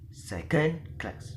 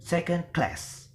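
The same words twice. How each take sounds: First: The stress falls on the word second. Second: The stress falls on the word class. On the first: The speaker calls it wrong. "we will not uh, pronounce it as" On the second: The speaker calls it right. "So the word stress is in the word class"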